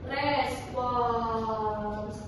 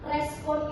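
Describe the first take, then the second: First: The word ends with a final 's' sound. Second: The word ends without a final 's' sound. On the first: The speaker calls it right. "Yang baku adalah res, respons" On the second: The speaker calls it wrong. "respon itu tidak baku"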